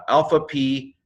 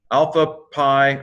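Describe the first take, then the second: First: "p" said like "pee"; corrected letter name. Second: "pi" said like "pie"; mistaken English pronunciation. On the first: Shown as a demonstration. Teacher corrects the letter name, "p" pronounced "pee". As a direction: say "alpha p" with a long ee. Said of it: "it's pi". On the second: Real, not acted. Teacher misnames the letter, "pi" pronounced "pie". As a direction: say "Alpha pi" with pi rhyming with eye. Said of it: "I'm sorry, it's not pi".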